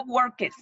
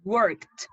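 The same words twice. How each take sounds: First: "worketh" with an extra "-eth" syllable on the end; wrong pronunciation. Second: "Worked" as one syllable ending in a t sound; correct pronunciation. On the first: Teacher mocks the students' wrong "worketh". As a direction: add a spoken "-eth" after "work". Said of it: "No worketh". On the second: Teacher repeats the right "Worked" for the class. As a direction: clip "Worked" short, with a final t and no "-ed" vowel. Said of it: "la forma correcta de pronunciar es worked, como con una T". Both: Shown as a demonstration.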